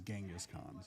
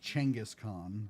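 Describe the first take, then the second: First: It is said the common Western way. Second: It is said the way the original speakers say it. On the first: "in the West we know it as Genghis Khan" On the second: "they pronounce it more as Chenghis Khan"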